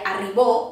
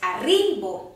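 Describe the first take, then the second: First: The stress is on the last syllable. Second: The stress is on the middle syllable. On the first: The speaker calls it wrong. "Si fos el bo, seria arribó" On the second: The speaker calls it right. "La síl·laba tònica és la ri, perquè és arribo"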